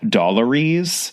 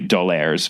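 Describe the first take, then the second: First: The name ends with an 'ary-ees' sound. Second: The name ends with a French 'air' sound. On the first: The speaker calls it wrong. "when I was a kid, I always pronounced as Dollaries" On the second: The speaker calls it right. "So it clearly has to be D'Aulaire's"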